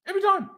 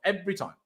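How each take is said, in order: First: Much higher, exasperated; exasperated high repeat. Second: Said in the usual way. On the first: Real, not acted. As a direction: throw it up in despair.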